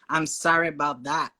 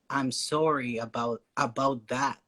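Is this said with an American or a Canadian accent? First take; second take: American; Canadian. First: It is said with an American accent. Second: It is said with a Canadian accent. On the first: "Americans they say more like" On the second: "like in Canada, we say"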